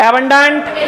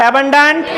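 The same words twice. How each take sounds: The two takes are said the same way.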